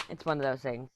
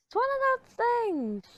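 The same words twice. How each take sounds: First: Said in the usual way. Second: Much higher, mock singsong lilt; sing-song high. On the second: Shown as a demonstration. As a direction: toss it off in a high playful tone. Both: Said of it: "repeats the phrase".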